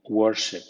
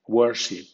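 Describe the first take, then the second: First: Worship with the second syllable reduced and unstressed; worship with weak ship. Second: Worship with ship kept full, medium stress. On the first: Teacher gives the weak-stress variant of worship to learners. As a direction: say worship with ship weakened toward a schwa. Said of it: "con acento débil como worship". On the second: Teacher gives worship first with a medium-stressed ship. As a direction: say worship as in the ship list, not reduced. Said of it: "o bien con acento débil como worship". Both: Shown as a demonstration.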